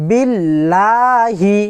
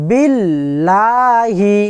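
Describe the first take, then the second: No difference in how they are said.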